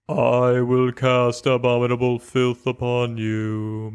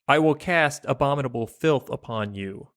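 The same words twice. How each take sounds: First: It is read like a priest preaching in church. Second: It is read in a plain reading voice.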